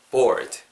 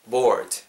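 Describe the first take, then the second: No difference in how they are said.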